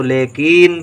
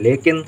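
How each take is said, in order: First: लेकिन with a long drawn-out "ee" in the second syllable; wrong long vowel. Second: लेकिन with a short "i" in the second syllable; लेकिन ending in a brief "kin"; correct short vowel. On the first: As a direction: stretch लेकिन into "le-keeen". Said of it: "गलती से का में बड़ी की मात्रा लिख दें". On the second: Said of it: "हमको लिखना है लेकिन". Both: Shown as a demonstration.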